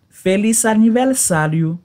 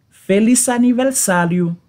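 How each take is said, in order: Both takes have the same delivery.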